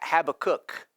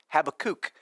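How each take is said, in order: First: The last syllable has the short vowel of cook. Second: The last syllable has the long vowel of kook. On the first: "like you have a cook in your house" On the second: "like as in you have a kook in your house"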